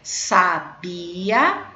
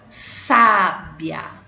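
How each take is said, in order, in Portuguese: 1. O acento está na segunda sílaba. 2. O acento está na primeira sílaba. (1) "sabia é um verbo" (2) "sábia é um adjetivo"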